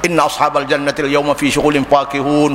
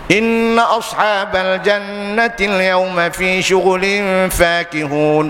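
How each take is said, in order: First: Rushed, with the nasal merging and holds skipped. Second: Quick, but with the nasal merging and holds kept. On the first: The reading ignores the rules and is blameworthy. The speaker calls it wrong. "kalau kita baca cepat, mana ada idgham?" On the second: A quick reading that still follows the rules. The speaker calls it right. "Ada ikhfa'nya, ada idghamnya, ada iqlabnya, ada izharnya"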